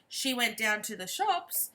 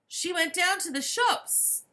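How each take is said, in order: First: It is said as a plain statement. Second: It is said as an excited exclamation.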